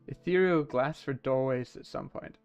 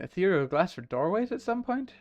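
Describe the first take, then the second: First: It is said as a statement, falling. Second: It is said as a question, rising.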